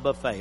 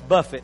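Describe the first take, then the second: First: The stress is on the second syllable. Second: The stress is on the first syllable. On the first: An all-you-can-eat meal. The speaker calls it wrong. "not buffet" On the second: To strike or discipline the body. The speaker calls it right. "so that's buffet"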